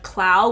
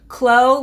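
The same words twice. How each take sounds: First: The vowel does not rhyme with glow. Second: The vowel rhymes with the word glow. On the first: The speaker calls it wrong. "which is how I was originally saying it" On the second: The speaker calls it right. "It's Clow, like glow"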